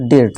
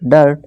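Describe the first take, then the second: First: The vowel sounds like 'i' in 'bit'. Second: The vowel sounds like 'u' in 'hurt'. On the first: The speaker calls it wrong. "ना कि ... डिर्ट" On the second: The speaker calls it right. "डर्ट डर्ट"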